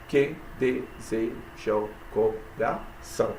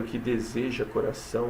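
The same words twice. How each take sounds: First: "Que deseja o coração" slowly split into syllables. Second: Said in the usual way. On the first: Shown as a demonstration. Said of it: "sete sílabas". ("Que deseja o coração" devagar, separando as sílabas) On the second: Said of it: "Diz assim".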